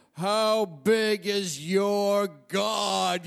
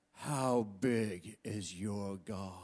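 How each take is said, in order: First: Higher, very slow, drawn-out preacher's call; preacher's challenge. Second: Low, slow, quiet preacher's question; preacher's challenge. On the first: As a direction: stretch out every word as a booming challenge. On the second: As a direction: ask it slowly and quietly, like a preacher probing the crowd. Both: Retold or imitated. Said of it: "and he'd go".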